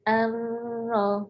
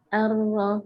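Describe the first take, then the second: First: The sound is held briefly before moving on. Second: The sound flows straight on without any hold. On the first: The speaker calls it wrong. "nah itu sudah ada tahan sebentar" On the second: The speaker calls it right.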